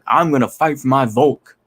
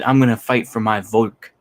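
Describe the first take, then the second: First: It is said in an overly dramatic way. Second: It is said in a plain, flat way.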